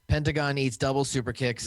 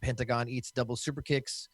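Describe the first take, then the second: First: It is read with energetic wrestler-style hype. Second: It is read in a flat, plain manner.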